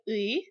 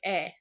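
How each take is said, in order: First: The particle sounds like 'ui', as spelled. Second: The particle sounds like a plain 'e'. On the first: "like 의 is how it's spelled" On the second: "most people pronounce it like 에"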